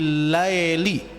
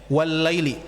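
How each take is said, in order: First: The vowel after 'l' is an 'ae' sound. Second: The vowel after 'l' is a clear 'ai'. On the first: The speaker calls it wrong. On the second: The speaker calls it right.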